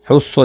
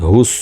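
First: "হুস" with a tight throaty h; wrong h sound. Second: "হুস" with a light open h, held s; correct h sound. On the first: Teacher shows learners what to avoid, wrong h in "হুস". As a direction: mispronounce "হুস" with the h squeezed in the throat. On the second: Teacher gives learners the proper form, light h in "হুস". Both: Shown as a demonstration. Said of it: "হুস যেন না হয়".

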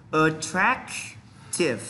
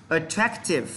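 First: "Attractive" split as "attrac", pause, "tive"; slow pronunciation demo. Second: Said in the usual way. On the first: Shown as a demonstration. Teacher has students pronounce along, broken-down demo. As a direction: draw out "Attractive" with a gap before its ending. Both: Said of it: "chúng ta cùng phát âm này".

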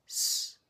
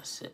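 First: "s" as a pure hiss, no u after it; just the "s" of snake; vowelless s. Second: "s" said as su, with its vowel; the wrong su, vowel sounded; full su syllable. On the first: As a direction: drop the vowel, leaving only "s". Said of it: "how we say silent or snake". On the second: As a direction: voice the u after the "s". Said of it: "is not". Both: Shown as a demonstration.

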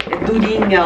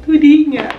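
First: Said in the usual way. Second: "Durinha" punched higher and louder; impressed exclamation, "Durinha" loud and high; emphatic repeat. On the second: Shown as a demonstration. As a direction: hit "Durinha" hard as an amazed echo.

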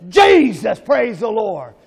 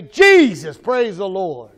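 First: Louder, more fervent call of praise; really mean it. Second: Said in the usual way. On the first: Shown as a demonstration. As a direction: shout it like you truly mean it. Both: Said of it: "Say it like you really mean it".

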